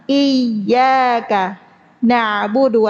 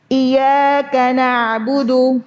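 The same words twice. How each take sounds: First: The y is doubled and pressed. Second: The y is single and not pressed. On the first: Only You do we worship. The speaker calls it right. "Tasydid. Ditekan" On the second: We worship Your sunlight. The speaker calls it wrong. "tanpa tasydid"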